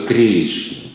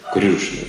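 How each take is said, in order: First: It is said the ordinary Russian way. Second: It is said with a rounded vowel, Oriya style. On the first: "Если мы говорим по-русски, то Кришна. Это русский" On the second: "Ории говорят Крюшна"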